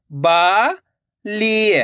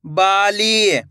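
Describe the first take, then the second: First: बाली split as बा, long pause, ली; syllable by syllable. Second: Bali joined, both vowels long; blended whole word. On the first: Teacher models for learners, Bali broken into two syllables. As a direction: hold Bali in two separate pieces. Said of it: "direct मात्रा का उच्चारण करके पढ़ेंगे". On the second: Teacher shows what it makes, Bali run together. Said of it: "तो मिलके बन जाएगा". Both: Shown as a demonstration.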